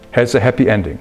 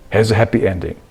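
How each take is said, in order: Both takes have the same delivery.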